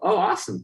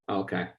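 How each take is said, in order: First: It is said with excitement and energy. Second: It is said flatly, without enthusiasm.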